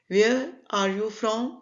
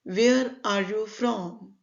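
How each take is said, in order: Both takes have the same delivery.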